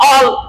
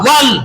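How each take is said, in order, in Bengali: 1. এটি খোলা স্বরধ্বনি দিয়ে শুরু, গোল করা w নেই। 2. এটি গোল ঠোঁট দিয়ে তৈরি w দিয়ে শুরু। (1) "অল এরকম যেন না" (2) "মুখ এভাবে গোল করবো"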